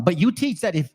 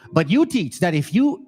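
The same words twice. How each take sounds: First: Slightly hurried scripture reading; a little fast. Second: Measured, careful scripture reading; slowed down. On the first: Preacher rushing a little through the verse to his audience. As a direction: read it a touch too quickly. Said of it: "I'm going a little fast, my bad". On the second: Preacher rereading the verse for his audience, slowed down. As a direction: take the verse a little more deliberately. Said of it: "Let me slow down". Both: Real, not acted.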